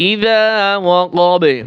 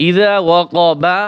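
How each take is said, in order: First: ইযা ওয়াকাবে with long vowels and a short bouncing final b; qalqalah on b. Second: ইযা ওয়াকাবা slowly, ending on a full open "ba"; full unpaused form. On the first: Teacher showing qalqalah on ba, bounced final b. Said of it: "কলকলা হবে". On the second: Teacher pointing out the ba letter, slow open ending. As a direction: sound the last vowel of ইযা ওয়াকাবা slowly. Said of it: "এই বা হরফ কলকলা". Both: Shown as a demonstration.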